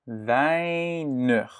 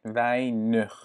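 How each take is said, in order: First: Weinig said the wrong way, as a flat French "vanœ" with no ei glide; the mispronunciation to avoid, Weinig without the diphthong. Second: Weinig slowly with a clear ei glide, "vay-nuh"; correct Dutch weinig. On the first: Teacher shows the learner the wrong Weinig, French-style. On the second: Teacher models the right weinig for the learner, slow and clear. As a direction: stretch the ei in weinig, Dutch style. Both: Shown as a demonstration. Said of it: "Ça ne se prononce pas comme weinig".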